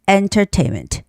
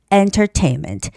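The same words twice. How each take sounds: First: The middle T is clearly pronounced. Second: The middle T is clearly pronounced.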